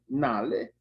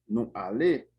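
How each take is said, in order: First: The pronoun merges into the verb as one word. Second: The pronoun is a separate full syllable. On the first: "Vai abreviar assim" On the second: "vou deixar assim mesmo"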